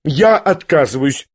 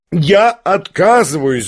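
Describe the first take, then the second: First: Said in the usual way. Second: Slow, insistent second "я отказываюсь"; the repeat leaned on harder; emphatic refusal. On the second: A narrator's reading. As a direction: drag it out, waving it off. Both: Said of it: "замахала руками".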